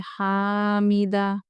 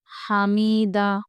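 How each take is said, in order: First: हामिदा with a wrongly lengthened vowel; mistaken reading. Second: हामिदा stretched out slowly; slow model word. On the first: Teacher showing pupils the mistaken हामिदा. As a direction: drag हामिदा as the wrong version. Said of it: "थोड़ी सी आवाज़ की mistake से". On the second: Teacher demonstrating हामिदा to pupils, slowly. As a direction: draw out हामिदा evenly for students. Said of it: "ऐसे पढ़ेंगे". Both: Shown as a demonstration.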